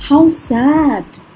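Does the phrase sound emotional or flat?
emotional. The phrase is said with clear emotion. The speaker calls it right. "आपको कुछ emotion अपने आवाज़ से भी सुनाना है ना"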